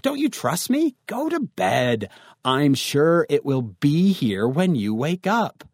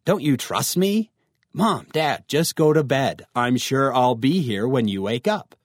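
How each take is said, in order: First: Lightly acted annoyed dad, drawing the words out; mad father. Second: Mildly indignant, slow opening question; mad teen. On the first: Father sends his worried teen to bed, mildly indignant. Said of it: "your father actually gets mad at you". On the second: Acted. Teen tells mom and dad to go to bed, mildly annoyed. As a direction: protest lightly like an annoyed teenager. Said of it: "let's suppose you get mad at them".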